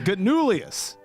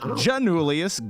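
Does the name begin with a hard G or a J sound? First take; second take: hard G; J. First: The name begins with a hard g sound. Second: The name begins with a j sound. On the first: The speaker calls it right. "we're still pronouncing that dude's last name wrong" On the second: The speaker calls it wrong. "Not Janulius"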